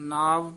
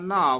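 First: The word is pronounced lightly and softly. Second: The word is pronounced heavily and forcefully. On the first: The speaker calls it right. "ਨਾਵ ਪਦ ਪੋਲਾ ਹੀ ਉਚਾਰਨ ਕਰਨਾ ਹੈ" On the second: The speaker calls it wrong. "ਨਾਵ ਨਹੀਂ ਕਹਿਣਾ ਹੈ"

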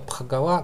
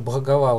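First: The word begins with a voiceless p sound. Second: The word begins with a voiced b sound. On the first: The speaker calls it wrong. "у нас обычно читают «х», и получается какой-то «пхагава»" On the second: The speaker calls it right. "лучше тогда уже «бхагава» вот так вот говорить, по-украински как бы"

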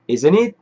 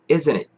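First: The stress does not fall on isn't. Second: The stress falls on isn't. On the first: The speaker calls it wrong. "아니고요" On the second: The speaker calls it right. "반드시 강세를 앞에 넣어서 Isn't it?"

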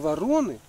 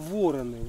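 First: The stress is on the second syllable. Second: The stress is on the first syllable. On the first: The birds are crows. The speaker calls it wrong. "Не вороны" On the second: The birds are ravens, bigger than crows. The speaker calls it right. "а вороны. Вороны — это, как правило, такая птица побольше вороны будет"

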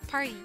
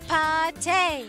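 First: The word ends in an 'ee' vowel. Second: The word ends in an 'ay' vowel.

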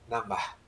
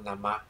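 First: The word ends with an audible breathy h. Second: The word ends without an audible h. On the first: The speaker calls it right. "There is a sound there" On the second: The speaker calls it wrong. "they pronounce on namaḥ śivāya. No"

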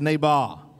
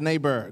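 First: The word is said in a non-American accent. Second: The word is said in an American accent. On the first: The speaker calls it right. "Say neighbor" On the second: The speaker calls it wrong. "Don't say neighbor. That's an American"

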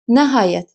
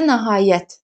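First: The stress is on the first syllable. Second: The stress is on the last syllable. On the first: It is a modal word meaning finally. "vurğu əvvələ düşəndə olur modal söz" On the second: It is a noun meaning end or limit. "Nəhayət də vurğu sona düşəndə olur isim"

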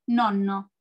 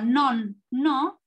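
First: The word is said quickly without a break. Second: The word is split with a break in the middle. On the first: "y después lo digo rápido, se convierte en" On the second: "Si yo digo non, no"

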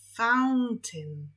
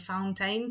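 First: The second syllable has a short 'i' vowel. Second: The second syllable has a full 'ain' vowel. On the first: The speaker calls it right. "tylko fountain" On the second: The speaker calls it wrong. "to fontanna będzie nie fountain"

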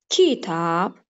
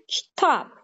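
First: The stress is on the first syllable. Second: The stress is on the second syllable. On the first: The speaker calls it wrong. "Eğer uygun gelmezse" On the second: The speaker calls it right. "İkinci hecanı daha kuvvetli telaffuz etdiyim için, demeli vurğu ikinci hecaya düşdü"

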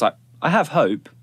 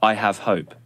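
First: It is said in a light, whimsical way. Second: It is said in a firm, stoic way. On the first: The speaker calls it right. "The intonation naturally that comes with it" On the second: The speaker calls it wrong. "Doesn't quite work"

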